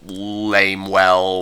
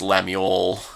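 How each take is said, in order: First: The name sounds like 'lame well'. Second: The name sounds like 'lem you el'. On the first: The speaker calls it wrong. "I pronounced um, Gulliver's first name Lamewell" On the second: The speaker calls it right. "it's supposed to be pronounced Lemuel"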